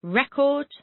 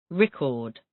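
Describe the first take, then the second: First: "Record" with the first syllable high and stressed; the noun "Record", stress up front: REH-kord. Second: "record" with a light ri and a stressed KORD; the verb "record", stress at the end: ri-KORD. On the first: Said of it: "record is a noun". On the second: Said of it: "record is a verb". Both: Shown as a demonstration.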